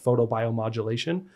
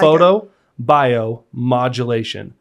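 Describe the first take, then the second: First: The word is said quickly in one run. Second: The word is said slowly, split into parts. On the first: "you said that really fast" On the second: "you're gonna break it"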